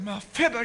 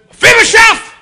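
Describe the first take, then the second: First: The name is said gently, close to tears. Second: The name is said harshly and forcefully.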